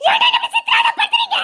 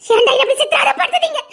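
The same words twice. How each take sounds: First: Desperate scream. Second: Said in the usual way. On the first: Acted. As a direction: scream at him in torment. Breaking down at him. (விரக்தியான அலறல்)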